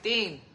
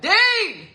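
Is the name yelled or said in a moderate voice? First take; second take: moderate; yelled. First: The name is said moderately, mid-pitch. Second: The name is yelled loudly.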